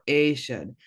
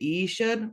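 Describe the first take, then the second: First: The word begins with an A vowel sound. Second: The word begins with an E vowel sound. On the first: "this word can be either E should or A should" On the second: "this word can be either E should or A should"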